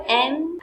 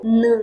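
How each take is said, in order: First: Said in the usual way. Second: N said as "nuh", not the letter name; initial-sound pronunciation. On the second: Shown as a demonstration. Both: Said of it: "we can pronounce it".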